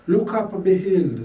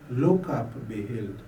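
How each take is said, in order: First: Higher, louder, with weight on look and be; solemn call. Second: Said in the usual way. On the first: Acted. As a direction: lift it as an appeal. Refrain inside the prayer poem.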